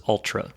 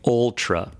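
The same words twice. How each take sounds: First: "Ultra" with an open vowel further back in the mouth. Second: "Ultra" with a rounded first vowel, like "ole-tra"; front-of-mouth Ultra. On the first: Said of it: "Ultra's in the back". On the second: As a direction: say "Ultra" starting like "old". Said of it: "Ultra's more in the front". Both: Shown as a demonstration.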